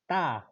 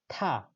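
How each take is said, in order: First: The syllable starts with an Estonian-style T. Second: The syllable starts with an English-style T. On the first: "double D is Estonian te" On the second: "Is different from English ta"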